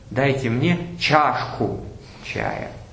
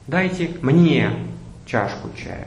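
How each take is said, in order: First: The word чашку carries the main stress. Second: The word мне carries the main stress. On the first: The speaker wants a cup, not a glass. "Я хочу чаю пить в чашке" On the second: Others were served but the speaker was not. "Следующий вариант"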